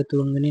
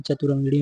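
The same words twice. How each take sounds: First: तुरंगिणी, starting straight on tu; wrong form तुरंगिणी. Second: चतुरंगिणी, opening cha-tu; correct form चतुरंगिणी. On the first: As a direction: say तुरंगिणी without the opening cha. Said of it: "नहीं". (तुरंगिणी, शुरू में 'च' के बिना) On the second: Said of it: "होता है". (चतुरंगिणी, शुरू में 'च' साफ़ बोलकर) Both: Shown as a demonstration.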